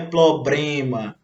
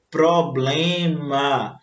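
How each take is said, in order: First: The R sound after the P is left out. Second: The R sound after the P is pronounced. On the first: The speaker calls it wrong. "o certo não é" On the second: The speaker calls it right. "e sim"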